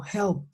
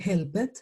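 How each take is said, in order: First: "helped" in one syllable, "helpt"; careful model "helped", closing on a crisp T sound; T ending. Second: "helped" in two syllables, "hel-pet"; Spanish-style wrong ending. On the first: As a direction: say "helped" with a silent E and final T. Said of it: "van a sonar como una T". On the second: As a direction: say "helped" as written, with a full "et" at the end. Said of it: "yo ya no puedo decir". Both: Shown as a demonstration.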